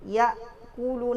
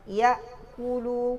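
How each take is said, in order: The two takes are said the same way.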